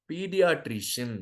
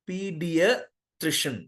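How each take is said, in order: First: Pediatrician slowly, with a long drawn first vowel; common wrong way. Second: Pediatrician slowly, with a short first vowel; correct pronunciation. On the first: Teacher imitating how students usually say it. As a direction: stretch out Pediatrician like everyone does. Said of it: "Just pronounce this word". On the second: Teacher slowly demonstrating the correct word. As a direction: spell out Pediatrician carefully, slow and short. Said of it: "I'll tell you how you pronounce this". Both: Shown as a demonstration.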